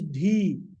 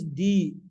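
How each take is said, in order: First: The D is said with extra breath. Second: The D is plain, without extra breath. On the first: "Another is D" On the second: "One is without emphasis"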